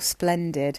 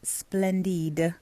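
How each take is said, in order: First: It is said plainly in an ordinary accent. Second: It is said with a put-on foreign accent.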